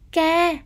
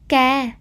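First: The syllable has a level tone. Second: The syllable has a low falling tone.

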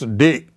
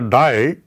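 First: The vowel sounds like 'ee'. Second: The vowel sounds like 'eye'. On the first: The speaker calls it right. "it is D" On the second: The speaker calls it wrong. "You don't say die"

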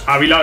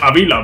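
First: The stress is on the first syllable. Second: The stress is on the second syllable. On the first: The speaker calls it wrong. "porque no es Ávila, no lleva tilde" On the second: The speaker calls it right. "Sería Ávila"

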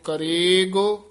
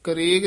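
First: The middle of the word is drawn out. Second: The middle of the word is said short. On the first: The speaker calls it right. "ਲਮਕਾ ਕੇ ਰਾਰੇ ਅਤੇ ਗੱਗੇ ਦੇ ਵਿੱਚ dash ਦੇ ਕੇ ਲਮਕਾ ਕੇ ਬੋਲਣਾ ਹੈ" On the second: The speaker calls it wrong. "ਕਰੇਗ ਨਹੀਂ ਕਹਿਣਾ"

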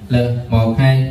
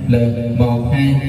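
First: The voice sounds dry with no added effects. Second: The voice sounds echoey with a trailing reverb. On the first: "mình thử mic khô" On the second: "echo thì vào nè"

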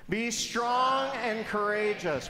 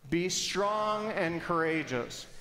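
First: It is said with more force and energy. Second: It is said with ordinary energy.

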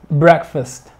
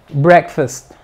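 No difference in how they are said.

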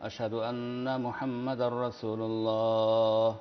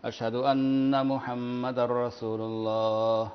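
The two takes are said the same way.

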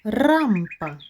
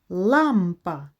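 First: The word begins with an R sound. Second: The word begins with an L sound. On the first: The speaker calls it wrong. "Правильно? Ні" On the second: The speaker calls it right. "Правильне слово лампа"

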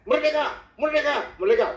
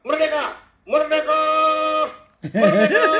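First: Each shout is clipped short, Papuan style. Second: Each shout is drawn out long.

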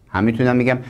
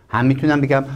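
Both takes have the same delivery.

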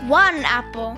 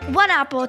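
First: It is said at a slower pace. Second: It is said at a much faster pace.

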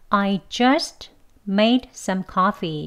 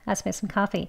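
First: Each word is said slowly and separately. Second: The words run together quickly. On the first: "그대로 각각 단어를 발음하면" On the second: "뭐 이런 식으로 빨리 휙 지나갈 거예요"

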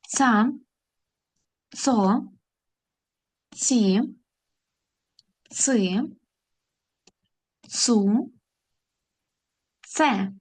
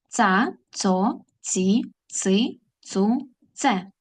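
First: The syllables are read at a moderate pace. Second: The syllables are read at a very fast pace. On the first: "А тепер разом прочитаємо ці склади" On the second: "І ще швидше"

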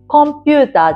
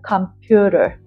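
First: All syllables are even, with full vowels. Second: The second syllable is stressed; the others are reduced. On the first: This is the Japanese way of saying it. The speaker calls it wrong. "ではなく、" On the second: This is the English way of saying it. The speaker calls it right. "置かれてるのはピューだよね。"

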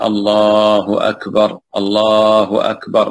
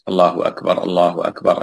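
First: It is said slowly, pausing after each phrase. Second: It is said quickly, without pausing between phrases.

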